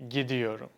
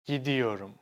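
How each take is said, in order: No difference in how they are said.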